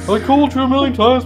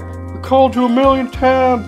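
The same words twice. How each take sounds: First: It is said without a Southern American accent. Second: It is said in a Southern American accent.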